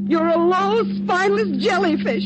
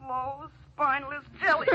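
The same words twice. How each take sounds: First: Loud, higher-pitched scornful shout; angry insult. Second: Softly repeated taunt from memory; haunting echo. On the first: Spurned woman insulting her lover in the car, angry shout. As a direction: spit the insult out at full voice. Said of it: "Stop shouting". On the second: Dead woman's words ringing in his ears, haunting. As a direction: replay the insult quietly, like a nagging thought. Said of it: "Ellen's words ring in his ears". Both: Acted.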